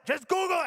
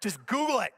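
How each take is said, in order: First: High, frantic mock yell; hammed-up exasperated yell; retold yelling. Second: Mildly insistent, retold command; a firm first try before the yell; insistent order. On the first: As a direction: escalate into a panicked repeat, pitched way up. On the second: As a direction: give the order with contained impatience. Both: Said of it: "I start yelling".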